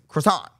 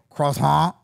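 First: The word is said with an English pronunciation. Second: The word is said with a French pronunciation. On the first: "I'm going to say it how it phonetically is spelled in English"

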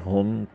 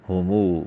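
First: The word ends on a bare consonant. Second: The word ends with a long 'oo' vowel. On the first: This is the regular form. "आखिर में जज्म" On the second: The sound is added for the poem's meter. "वाव की आवाज़ पैदा की जाती है"

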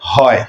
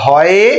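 First: The final vowel is clipped into a short glide. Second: The final vowel is drawn out as a full vowel. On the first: The speaker calls it right. "আমরা পড়ি যায় হয়" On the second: The speaker calls it wrong. "টেনে বলতে পারি না"

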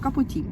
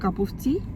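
First: The words run together fast, with 'of' dropped. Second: Each word is said separately, with 'of' heard. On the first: This is how native speakers say it at work. "Там і не чуть «ов», нічого, це так швидко" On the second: This is how the phrase is taught in class. "Якщо ти учиш казати"

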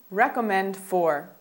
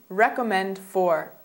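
The two takes are said the same way.

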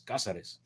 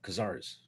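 First: The name is pronounced in a Spanish way. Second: The name is pronounced in an anglicized way. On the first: This is the strictly proper original pronunciation. "the Spanish pronunciation is Cazares" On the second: This is how the person says his own name. "I believe he pronounced it Cazares"

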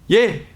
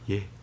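First: The answer is said very loudly. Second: The answer is said very quietly. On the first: "크게 하기입니다" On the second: "이렇게 작게 대답함으로써"

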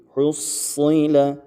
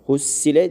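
First: The s sound is thick and heavy. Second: The s sound is thin and light. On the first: The speaker calls it right. "Buradaki satları da kalın okumaya dikkat edelim" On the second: The speaker calls it wrong. "Hussile değil"

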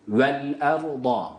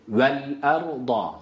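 The two takes are said the same way.

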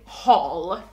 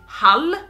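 First: It is said with an English pronunciation. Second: It is said with a Swedish pronunciation. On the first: "you say Hall" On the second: "we say Hall"

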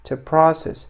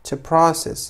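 Both takes have the same delivery.

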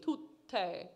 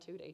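First: The middle T is held long and doubled. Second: The middle T is short and light. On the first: The speaker calls it right. "that very Italian double T" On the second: The speaker calls it wrong. "I don't want you in the lobby referring it to as Cosi fan tutte"

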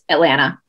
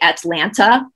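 First: The final T in the word is silent. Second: Every T in the word is clearly pronounced. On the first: The speaker is a local. The speaker calls it right. "the T at the end is silent" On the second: The speaker is not from the city. The speaker calls it wrong. "They pronounce all the T's"

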